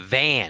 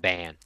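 First: The word begins with a V sound. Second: The word begins with a B sound. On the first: The speaker calls it right. "No, it's a van" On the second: The speaker calls it wrong. "He says everything sounds like a B"

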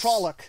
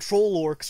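First: The second part sounds like 'ock', without r. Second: The second part sounds like 'orcs'. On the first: The speaker calls it right. "No, there's no R. It's Trolloc" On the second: The speaker calls it wrong. "I may call them troll orcs from time to time"

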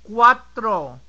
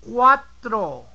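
The two takes are said the same way.

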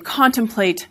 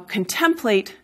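First: The stress falls on the first syllable. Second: The stress falls on the second syllable. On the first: This is the newer, more English-sounding form. "became contemplate, again making that word sound more English" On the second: This is the older form of the word. "how contemplate"

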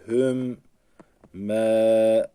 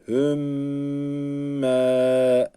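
First: The word is split into two separate syllables. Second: The doubled m joins the word into one unit. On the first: The speaker calls it wrong. "Ayrı ayrı okumuyoruz. Mesela hüm me, bu şekilde okunmuyor" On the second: The speaker calls it right. "Gerçek okunuşu hümme"

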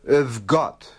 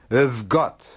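Both takes have the same delivery.

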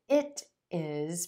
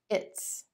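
First: Two separate words are said in full. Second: The words are merged into one contracted syllable.

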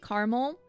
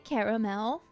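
First: It is said in a plain, everyday pronunciation. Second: It is said in a fancier, more refined pronunciation. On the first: This is the usual way of saying it. "I say caramel" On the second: The speaker is in a fancy mood. "but sometimes if I'm feeling fancy, I say caramel"

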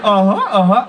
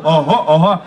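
First: It is said in a light, girlish voice. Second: It is said in a deep, manly, assertive voice. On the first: "дівчата так" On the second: "по-мужньому ага-ага, утверждаючи"

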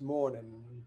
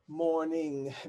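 First: The final g sound is dropped. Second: The ending keeps its final g sound.

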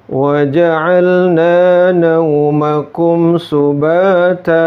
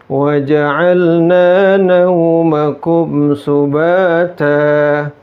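The two takes are said the same way.

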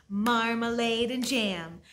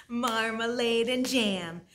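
Both takes have the same delivery.

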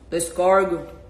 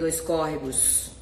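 First: The last word is squeezed into two short syllables. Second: The last word is said with all its syllables.

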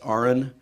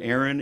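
First: The name sounds like the letters R and N. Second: The name is said the usual way, not like R-N. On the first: The speaker calls it right. "it's pronounced like registered nurse. R-N" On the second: The speaker calls it wrong. "my name is not Aaron"

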